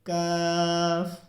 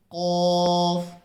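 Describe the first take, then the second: First: काफ drawn out slowly and light; thin kaaf. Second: कॉफ drawn out slowly, heavy and rounded; full-mouthed qaaf. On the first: Teacher to viewers, a light slow काफ. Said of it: "बारीक करके पढ़ना है". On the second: Teacher to viewers, a slow heavy कॉफ. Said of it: "इसको पुर करके पढ़ना है". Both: Shown as a demonstration.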